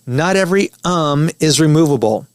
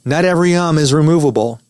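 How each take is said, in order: First: The um stands apart from the other words. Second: The um runs into the surrounding words. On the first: The um can be cut out cleanly. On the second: The um cannot be cut out cleanly.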